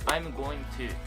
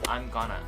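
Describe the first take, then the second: First: Going to is said in full, word by word. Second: Going to is squeezed into one reduced word. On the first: "I'm going to が" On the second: "I'm gonna になったり"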